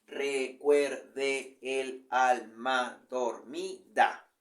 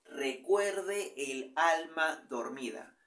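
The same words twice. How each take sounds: First: Very slow, every syllable spaced out; very slow syllable count. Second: Slow, stretched reading to count syllables. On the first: Teacher counting the eight syllables aloud, very slowly. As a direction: spell out the meter slowly. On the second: Teacher slowly counting syllables for the class, drawn out. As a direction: draw the verse out syllable by syllable. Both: Shown as a demonstration. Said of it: "Primer verso".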